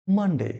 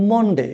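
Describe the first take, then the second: First: মানডে with an open "a", "man-de"; corrected Monday. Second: মন্ডে with a rounded "o", "mon-de"; mispronounced Monday. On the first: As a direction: say মানডে with first vowel "ah", not "o". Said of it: "সঠিক উচ্চারণ কি হবে?". (মানডে-র সঠিক উচ্চারণ, "মান-ডে") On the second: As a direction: say মন্ডে like "MON-day", vowel as in Bengali mon. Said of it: "একে লিখি আমরা". (মন্ডে-র ভুল উচ্চারণ, "মন-ডে") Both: Shown as a demonstration.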